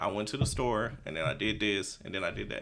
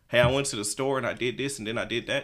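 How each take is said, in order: First: It is said slowly. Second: It is said fast.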